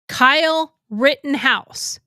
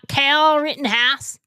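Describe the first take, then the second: First: The first name has the long 'eye' vowel. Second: The first name has the short 'a' vowel. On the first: The speaker calls it right. "Kyle Rittenhouse, not Cal Rittenhouse" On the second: The speaker calls it wrong. "not Cal Rittenhouse"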